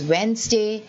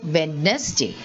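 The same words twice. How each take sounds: First: The first D in the word is silent. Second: The first D in the word is pronounced. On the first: The speaker calls it right. "it is Wednesday" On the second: The speaker calls it wrong. "Many of us say Wednesday, but it is not Wednesday"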